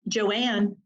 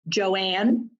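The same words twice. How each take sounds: First: The name is said firmly, falling at the end. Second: The name is said questioningly, rising at the end.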